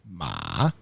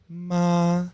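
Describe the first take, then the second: First: The pitch dips down and comes back up. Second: The pitch stays level and flat. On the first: "Third one is a check mark" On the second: "First one is a straight ma"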